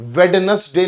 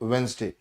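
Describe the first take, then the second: First: The middle 'd' and 'ne' are fully pronounced. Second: The middle 'd' is silent, giving two syllables. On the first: The speaker calls it wrong. "वेडनेसडे नहीं बोलते बच्चे" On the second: The speaker calls it right. "वेंसडे बोला जाता है"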